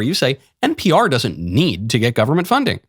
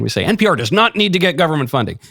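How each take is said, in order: First: The sentence is said in a calm tone. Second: The sentence is said in an angry tone. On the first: The speaker is defending the broadcaster. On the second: The speaker is outraged about the funding.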